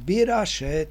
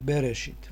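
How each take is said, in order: First: The word begins with bi and ends in -šet. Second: The word begins with be and ends in -šit. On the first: This reading borrows vowels from another word. The speaker calls it wrong. "to musíte prečítať Birašet, nie Berešit" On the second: This is the usual reading everywhere. The speaker calls it right. "všade to prečítajú Berešit"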